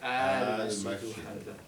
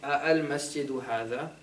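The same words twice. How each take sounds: First: The opening vowel is drawn out long. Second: The opening vowel is short. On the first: The speaker calls it right. "You say" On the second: The speaker calls it wrong. "Instead of saying"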